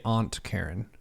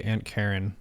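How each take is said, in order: First: "Aunt" with broad "ah", like "ont"; rejected pronunciation. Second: "Aunt" said like the insect ant; own pronunciation. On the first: Showing what they wouldn't say, "Aunt" as AHNT. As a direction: say "Aunt" as AHNT before the name. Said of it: "I wouldn't say Aunt Karen". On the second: Naming an aunt as they would, "Aunt" as ANT. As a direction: say "Aunt" as ANT before the name. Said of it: "that's how I would say it". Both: Shown as a demonstration.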